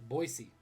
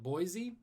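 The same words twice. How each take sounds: First: It is pronounced the way locals say it. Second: It is pronounced the way outsiders say it. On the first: The speaker is from the city. The speaker calls it right. "But Boiseans call it Boise" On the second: The speaker is not from the city. The speaker calls it wrong. "If you're not from Boise, you call it Boise"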